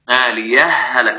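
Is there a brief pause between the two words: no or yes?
no. The two words run together without a pause. "وصلا إدغام"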